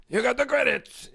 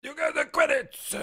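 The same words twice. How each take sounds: First: Second try, high and a bit louder; Watto impression. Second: High, squeaky alien trader voice, much higher; a rough go at the junk dealer's voice; Watto impression. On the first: Streamer retries Watto for chat, high and louder. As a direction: push the squeaky trader voice again. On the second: Streamer tries Watto's voice for chat, high and squeaky. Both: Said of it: "Can you do a Watto voice?".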